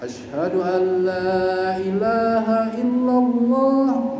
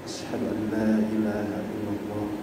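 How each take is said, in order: First: The phrase is said in a loud, high voice. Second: The phrase is said in a soft, low voice. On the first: "suara kencang" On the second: "suara ridih"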